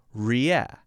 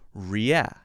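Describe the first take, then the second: No difference in how they are said.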